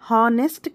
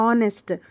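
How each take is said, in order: First: The word begins with an audible h sound. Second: The word begins directly with a vowel sound. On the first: The speaker calls it wrong. "హానెస్ట్ కాదు" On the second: The speaker calls it right. "ఇక్కడ హెచ్ silent అండి"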